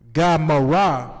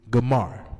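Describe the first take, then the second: First: It is said as three syllables, ending in a vowel. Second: It is said as two syllables, ending in r. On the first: The speaker calls it wrong. "if it's just Gamara, Gamara, it wouldn't give you the right pronunciation" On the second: The speaker calls it right. "that gives you Gamar, which is the right pronunciation"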